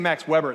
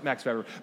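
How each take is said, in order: First: The name is said with English pronunciation. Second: The name is said with German pronunciation. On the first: The speaker calls it wrong. "it sounds like he's a barbecue guy" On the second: The speaker calls it right. "but no, it's Max Weber"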